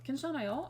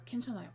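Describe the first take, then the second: First: The voice rises at the end, as a question. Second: The voice falls at the end, as a statement.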